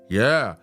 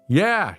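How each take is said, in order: First: It is said in a low, hushed voice. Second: It is said in an ordinary speaking voice. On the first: The speaker calls it right. "Let me say that in a low voice" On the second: The speaker calls it wrong. "My apologies"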